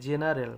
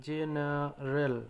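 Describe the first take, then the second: First: Said in the usual way. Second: general drawn out slowly, syllable by syllable; slowly spelled out. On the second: Shown as a demonstration. Teacher showing students the word, said very slowly. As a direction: stretch general out slowly so learners catch each sound. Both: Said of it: "জ যেমন হচ্ছে general".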